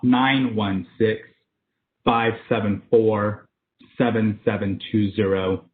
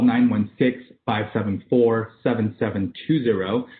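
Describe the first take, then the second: First: The number is read at a slower pace. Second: The number is read at a faster pace.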